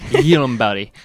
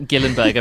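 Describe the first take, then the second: First: The name begins with a Y sound. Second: The name begins with a hard G sound. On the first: The speaker calls it right. "Apparently, it's Yirumberi" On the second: The speaker calls it wrong. "It's not Gillenberg"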